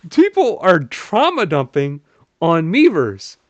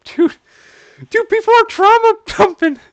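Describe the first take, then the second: First: Slow, stretched, a bit louder; drawn-out disbelief. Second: High, loud, shocked shout; stunned outcry. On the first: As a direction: spell it out slowly, still stunned. Repeats it drawn out. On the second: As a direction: yell it in disbelief. Outcry at trauma dumping. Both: Real, not acted.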